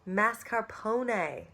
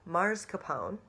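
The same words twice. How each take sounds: First: An R sound comes late, before the P. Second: An R sound comes early, before the S. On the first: The speaker calls it right. "The R goes at the end of the word before the P" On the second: The speaker calls it wrong. "there is no R at the beginning of the word before the S"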